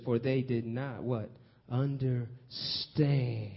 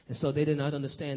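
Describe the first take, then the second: First: Understand stretched very slow and long as a call-and-response; drawn-out emphasis. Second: Said in the usual way. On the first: Shown as a demonstration. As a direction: pull out the word Understand slowly for the congregation. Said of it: "But you look closely, it says". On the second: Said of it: "But you look closely".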